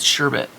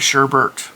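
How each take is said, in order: First: The second syllable has no R sound. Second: The second syllable has an extra R sound. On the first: This matches how the word is spelled. "It's sherbet" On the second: This is how the speaker grew up saying it. "my whole life I was raised that it was sherbet, and that's not actually how it's spelled"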